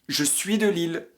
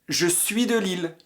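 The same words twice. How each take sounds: Both takes have the same delivery.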